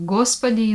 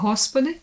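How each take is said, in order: First: The word begins with a hard G sound. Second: The word begins with an H sound. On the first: This is the Russian pronunciation. "in Russian" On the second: This is the Slavic and Ukrainian pronunciation. "in Slavic language and in Ukrainian"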